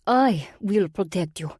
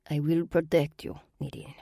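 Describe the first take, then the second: First: Put-on slow, biting Russian-accented promise; angry bite. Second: Put-on calm, soothing Russian-accented promise; serenely. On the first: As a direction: let the anger bite through. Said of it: "couldn't hide the angry bite in her voice". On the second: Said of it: "Varvera said serenely".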